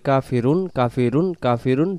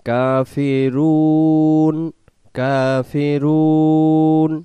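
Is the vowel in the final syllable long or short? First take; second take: short; long. First: The final 'u' vowel is cut short. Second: The final 'u' vowel is drawn out long. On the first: The speaker calls it wrong. "ওয়াও সাকিন বাদ চলে যাবে" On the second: The speaker calls it right. "টান দিয়ে দম ছেড়ে দেব"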